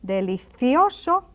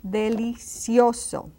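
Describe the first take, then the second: First: Delicioso said with TH for the C; Castilian TH. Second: Delicioso slowly, with S for the C. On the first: Teacher contrasting for learners, Delicioso with TH. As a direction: make the C in Delicioso a TH. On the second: Teacher contrasting for learners, delicioso with S. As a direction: give delicioso a clear S in "cio". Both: Shown as a demonstration. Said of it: "Can you notice the difference?".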